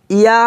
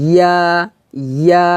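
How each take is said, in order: First: ইয়া split as i-ya; wrong ya. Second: ইয়া as one palatal syllable, ya; correct ya. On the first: Teacher showing what not to say, ইয়া as i-ya. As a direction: start ইয়া on a separate i vowel. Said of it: "ইয়া হবে না". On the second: Teacher showing the proper sound, ইয়া without leading i. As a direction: say ইয়া with mid-tongue at the palate. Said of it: "এভাবে উচ্চারণটা হবে". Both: Shown as a demonstration.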